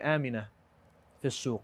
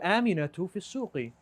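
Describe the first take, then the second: First: Both nouns lose their final vowel endings. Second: Both nouns carry full vowel endings. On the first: This is how people talk nowadays. "He's going to say" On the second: This is the formal grammatical form.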